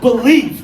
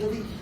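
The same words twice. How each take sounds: First: The word is said loudly, with strong energy. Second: The word is said plainly, with little energy. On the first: The speaker calls it right. "That's the kind of way you say believe" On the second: The speaker calls it wrong. "We don't just say believe"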